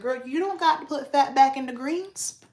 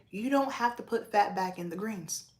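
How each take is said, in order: First: Put-on higher, louder, emphatic girl-talk; telling her mom off about the greens, emphatically; exclaiming. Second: Said in the usual way. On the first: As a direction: tell mom off with a playful exclamation. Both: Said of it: "I was like".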